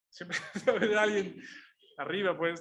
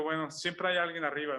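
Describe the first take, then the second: First: Amused laugh as he repeats the thought. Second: Said in the usual way. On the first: Real, not acted. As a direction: laugh through "Siempre hay alguien arriba".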